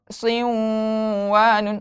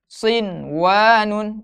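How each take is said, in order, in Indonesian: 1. Huruf n dilebur ke dalam w. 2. Huruf n diucapkan dengan jelas sebelum w. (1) "Bukan siwanun" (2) "tidak didengungkan. Namun diizharkan"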